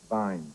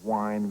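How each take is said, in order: First: The word begins with a V sound. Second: The word begins with a W sound. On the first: "we say vine" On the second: "instead of wine"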